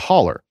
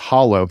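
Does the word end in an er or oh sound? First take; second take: er; oh. First: The word ends in an er sound. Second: The word ends in an oh sound. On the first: "We pronounce it a holler" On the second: "the actual word is hollow"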